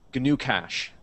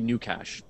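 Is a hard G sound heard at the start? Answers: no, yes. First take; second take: yes; no. First: The first word begins with a hard G sound. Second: The first word begins with an N sound. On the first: The speaker calls it right. "I'm pronouncing the G" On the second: The speaker calls it wrong. "It's maybe new cash, but then it sounds like I'm saying new cash"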